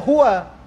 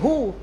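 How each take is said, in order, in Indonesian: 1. Kata itu diucapkan dengan suku kata akhirnya yang penuh. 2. Kata itu dipotong pendek, berakhir tanpa vokal. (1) "Sebenarnya huwa" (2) "orang sukunkan dia. Tu yang jadi hu"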